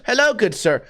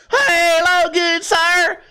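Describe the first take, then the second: First: Said in the usual way. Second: Put-on high, stretched-out Southern-style accent; talking different after head hit. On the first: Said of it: "one person just got hit right in their fucking head". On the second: Head-injured settler greeting a gentleman, exaggerated drawling accent. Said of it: "I hit my head so hard and now I talk different".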